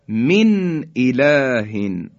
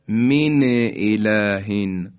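First: The n is said clearly with no vowel after it. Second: The n is followed by a short vowel. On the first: The speaker calls it right. "اظهار میکنیم" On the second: The speaker calls it wrong. "نباید نونم حرکت بدیم... اینم صحیح نیست"

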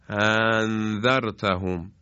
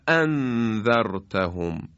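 First: The glottal stop is soft and slack. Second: The glottal stop is sharp and forceful. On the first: The speaker calls it wrong. "نمیتونیم بگیم الذی یا بگیم انذرتهم" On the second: The speaker calls it right. "خیلی تیز و سنگین ادا میکنیم"

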